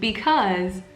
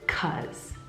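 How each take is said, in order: First: The word is said with both syllables. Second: The word is shortened to 'cuz'.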